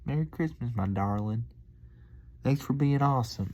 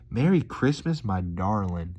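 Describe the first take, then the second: First: High, sweet Southern country lilt; hamming up the country waitress; country accent. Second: A touch of Southern country sweetness; lightly imitating the country waitress; country accent. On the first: Retold or imitated. Vlogger replaying the waitress's farewell in a high sweet Southern country accent. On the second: Vlogger imitating the waitress, a touch of Southern country accent. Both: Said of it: "just countryed it up".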